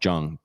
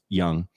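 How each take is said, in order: First: The name begins with a J sound. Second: The name begins with a Y sound. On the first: The speaker calls it wrong. "I was tempted to call him Jung" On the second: The speaker calls it right. "but it's Young"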